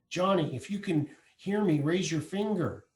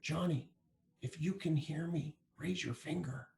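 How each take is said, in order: First: It is said with a louder voice. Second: It is said softly and quietly.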